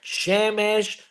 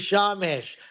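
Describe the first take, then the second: First: The first vowel is an e sound. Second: The first vowel is an a sound. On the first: This is the ordinary form of the word. "a word that has two segols in it" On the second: This is the form used at the end of a verse. "The Torah changes it"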